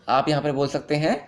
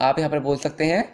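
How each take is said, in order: The two takes are said the same way.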